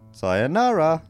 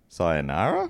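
First: The voice rises and then falls at the end. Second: The voice rises at the end and stays up. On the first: The speaker calls it right. "up and then down" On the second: The speaker calls it wrong. "you have to go up at the end"

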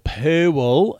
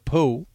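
First: Pool is said with two syllables, Australian style. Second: Pool is said with one syllable.

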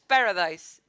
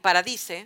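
First: Paradise is said with an English-style vowel. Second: Paradise is said with a Spanish-style open A. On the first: "it's paradise. Say it well" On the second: "That is the way that in Mexico we will pronounce that word"

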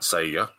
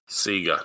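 First: Sega is said with a non-Australian pronunciation. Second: Sega is said with an Australian pronunciation. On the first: The speaker calls it wrong. "not Sega" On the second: The speaker calls it right. "We're Australian, thank you. Say it properly"

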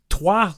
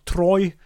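First: The name is said the French way, like 'trwah'. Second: The name is said like the English word 'Troy'. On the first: The speaker calls it right. "4 years of French and I forgot that" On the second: The speaker calls it wrong. "not Troy"

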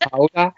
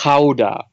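First: Gouda is said with the American pronunciation. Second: Gouda is said with the Dutch pronunciation. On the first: The speaker calls it wrong. "no offense to y'all Americans, but it's not Gouda" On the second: The speaker calls it right. "It's Gouda. I'm half Dutch"

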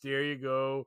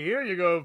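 First: It is said wearily, like a burden. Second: It is said joyfully and merrily.

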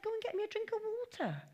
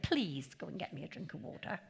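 First: It is said bluntly, like a command. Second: It is said nicely, like a polite request.

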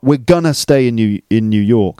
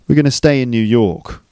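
First: The word 'gonna' is said strongly and clearly. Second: The word 'gonna' is said weakly and reduced. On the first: The speaker calls it wrong. "It's not" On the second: The speaker calls it right. "It's like really weak pronunciation on gonna"

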